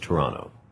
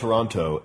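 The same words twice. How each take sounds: First: The second T is dropped. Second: The second T is clearly pronounced. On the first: This is how locals say the name. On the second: This is how outsiders say the name.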